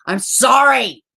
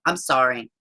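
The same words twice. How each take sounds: First: SORRY higher, louder and drawn out; emphatic repeat. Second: Said in the usual way. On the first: Real, not acted. Streamer repeating her apology mid-rant, stressing SORRY. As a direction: lean hard and slow on "sorry".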